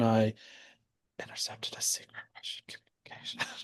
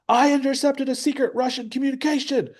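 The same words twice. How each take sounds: First: It is said quietly, in a whisper. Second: It is said loudly, as a yell. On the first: The news is being kept secret. "He he whispers like" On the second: The speaker wants to be heard over everyone. "Dustin yells"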